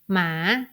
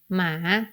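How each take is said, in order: First: The word is said with a rising pitch. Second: The same.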